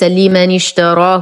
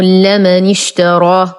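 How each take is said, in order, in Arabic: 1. تلي اللام الأولى حركة كسرة. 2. تلي اللام الأولى حركة فتحة. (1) "وليس لمن اشتراه وهذا خطأ" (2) "بفتح اللام"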